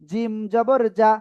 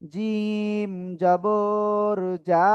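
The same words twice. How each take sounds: First: The final vowel is said short and quick. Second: The final vowel is stretched out long. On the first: The speaker calls it right. "হরকতের উচ্চারণ সবসময় তাড়াতাড়ি পড়তে হবে।" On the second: The speaker calls it wrong. "এরকম পড়া যাবে না।"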